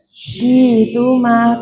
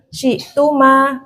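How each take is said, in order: First: The glottal stop becomes a long vowel. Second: A glottal stop is kept inside the word.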